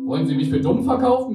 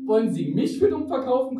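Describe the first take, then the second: First: Grumbling man, louder; annoyed, scolding the narrator; meckernd. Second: High, pushing back with für stressed; countering. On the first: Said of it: "meckerte der Passant mich an". (meckernd und lauter) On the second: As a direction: throw the same line right back, higher. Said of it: "konterte ich". (kontert, höher, Betonung auf für) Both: A narrator's reading.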